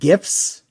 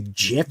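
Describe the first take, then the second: First: It begins with a hard G sound. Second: It begins with a soft J sound. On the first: "I've always said GIFs" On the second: "some people say GIFs"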